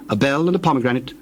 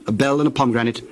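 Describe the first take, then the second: No difference in how they are said.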